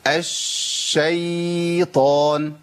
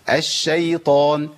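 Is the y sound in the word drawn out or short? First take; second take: drawn out; short. First: The y sound is stretched out long. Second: The y sound is kept short. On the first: The speaker calls it wrong. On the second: The speaker calls it right.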